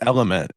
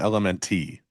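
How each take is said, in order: First: The name is said as one whole word. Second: The name is spelled out letter by letter. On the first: The speaker calls it right. "It's Element" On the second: The speaker calls it wrong. "It's not L M N T"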